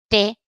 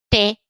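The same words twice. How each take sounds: The two takes are said the same way.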